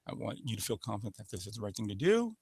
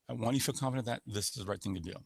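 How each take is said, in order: First: The pitch rises at the end. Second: The pitch stays flat through to the end. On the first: It sounds unsure and creates doubt. The speaker calls it wrong. "Question goes up at the end" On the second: It is a confident statement. The speaker calls it right. "The statement is monotone. This is me saying a statement"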